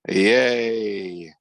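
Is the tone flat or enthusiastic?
flat. It is said flatly, without enthusiasm.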